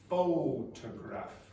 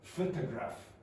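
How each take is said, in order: First: The first vowel is a full, strong vowel. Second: The first vowel is reduced to a weak sound. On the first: The speaker calls it right. "It's photograph" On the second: The speaker calls it wrong. "So I don't say f. This is not photograph"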